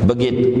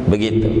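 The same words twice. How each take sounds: No difference in how they are said.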